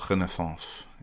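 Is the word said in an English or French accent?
French. The word is said in a French accent.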